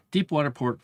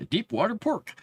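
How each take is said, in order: First: Said in the usual way. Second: Laughing through the words, higher. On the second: Real, not acted.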